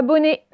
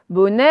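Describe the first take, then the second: First: Bonnet said with closed é ending, like "bonné"; mauvaise prononciation en é. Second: BONNET with an open final è sound; son è ouvert. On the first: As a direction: mispronounce bonnet with final é. (bonnet avec un é fermé final) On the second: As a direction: say Bonnet with è at the end. (Bonnet avec un è ouvert final) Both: Shown as a demonstration. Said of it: "c'est pas bonnet".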